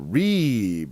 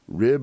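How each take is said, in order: First: The vowel is a long ee sound. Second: The vowel is a short i sound.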